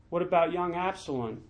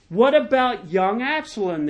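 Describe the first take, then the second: First: Soft, restrained royal question; subdued demand. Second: Higher, insistent royal question; demanding. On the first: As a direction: ask it quietly, holding the voice back. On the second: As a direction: press for an answer, pitch lifted. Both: A narrator's reading. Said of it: "the king demanded".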